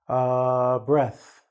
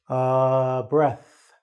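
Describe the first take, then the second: Both takes have the same delivery.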